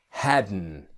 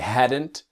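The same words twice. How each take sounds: First: The final T is dropped after the N. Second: The final T is pronounced clearly. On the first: "the T disappears" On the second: "hadn't with a T"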